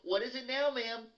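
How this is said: It sounds fake polite, hiding anger.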